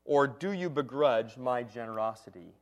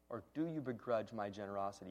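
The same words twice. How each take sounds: First: Said in the usual way. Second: "Or do you begrudge my generosity?" repeated much softer and lower; quiet repeat. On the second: Shown as a demonstration. Preacher repeats the verse to let it land, hushed. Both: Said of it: "Now listen to this next phrase".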